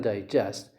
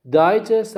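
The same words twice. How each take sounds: First: Digest as a verb, di-GEST; second-syllable stress. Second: Digest as a noun, DI-gest; first-syllable stress. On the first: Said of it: "the stress is on the second syllable". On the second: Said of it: "the stress is on the first syllable". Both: Shown as a demonstration.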